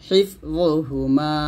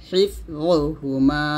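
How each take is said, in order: The two takes are said the same way.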